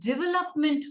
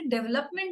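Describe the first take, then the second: First: The first syllable sounds like 'dih'. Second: The first syllable sounds like 'deh'. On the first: The speaker calls it right. "डेवलपमेंट हुआ है. ... Pronounce हम डी आई करते हैं" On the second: The speaker calls it wrong. "अरे डेवलपमेंट नहीं हुआ है"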